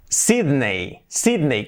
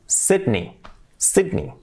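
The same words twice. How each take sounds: First: "Sydney" said SEED-nay; Spanish pronunciation. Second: "Sydney" said SID-nee; English pronunciation. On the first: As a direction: end "Sydney" on an EY glide. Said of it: "en España decimos siempre Sydney". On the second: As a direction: end "Sydney" on a short EE. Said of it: "Sydney, con I". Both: Shown as a demonstration.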